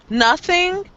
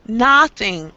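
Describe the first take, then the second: First: The first vowel is a short schwa sound. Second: The first vowel is a rounded oh sound. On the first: The speaker calls it right. "It's probably a schwa" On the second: The speaker calls it wrong. "we don't say nothing"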